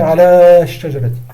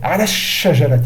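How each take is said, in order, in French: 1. La voyelle finale du premier mot est longue. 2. La voyelle finale du premier mot est brève. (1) "on ne dit pas" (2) "on ne prononce pas le alif on dit"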